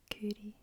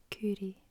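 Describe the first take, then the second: First: Coorie whispered, KOO-ree; whispered Scots word. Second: Coorie spoken aloud, KOO-ree, falling; voiced Scots word. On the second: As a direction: say Coorie out loud. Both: Shown as a demonstration. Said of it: "it just means to".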